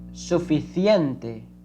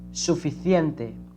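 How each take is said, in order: First: The c sounds like th in thin. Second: The same.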